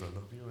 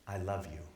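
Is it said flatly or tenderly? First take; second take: flatly; tenderly. First: It is said quickly and flatly. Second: It is said slowly and tenderly.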